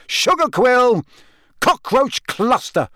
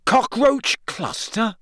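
First: High yelled guesses, Cockroach stretched and slow; angry yell. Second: High, slow, questioning "Cockroach cluster?"; can't believe it worked; amazed. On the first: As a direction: fling passwords out in frustration. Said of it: "he yelled angrily". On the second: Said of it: "he said, amazed". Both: A narrator's reading.

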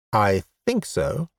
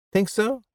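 First: Unsure statement, falling on "so"; tentative answer. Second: High question, rising on "so"; incredulous echo. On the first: Man admitting he lost his memory, tentative. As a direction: say "I think so" with the tune coming down. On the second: Woman doubting the man's answer, incredulous echo. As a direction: throw "Think so" back high and questioning. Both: Acted.

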